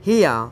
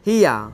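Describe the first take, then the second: No difference in how they are said.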